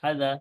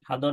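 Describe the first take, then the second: First: The vowel is said thin and light. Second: The vowel is said thick and rounded. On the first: The speaker calls it right. "পাতলা করে হাদা" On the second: The speaker calls it wrong. "হাদো না"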